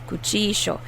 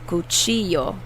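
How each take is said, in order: First: The double L is said like 'sh'. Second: The double L is said like a 'y'. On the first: This is how it is said in Argentina. "Argentina, we say cuchillo. The double L makes a S H sound" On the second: This is how it is said in Mexico. "In Mexico, they will say cuchillo. So the double L is pronounced like a y"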